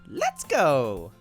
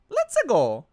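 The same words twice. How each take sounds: First: It is said in a plain reading voice. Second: It is said in a Mario impression voice.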